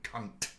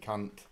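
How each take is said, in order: First: The final T is hard and pronounced. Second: The final T is soft and light. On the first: It is meant as aggression. "if I put more inflection on the T at the end of that word" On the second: It is said with affection between friends. "he won't get offended"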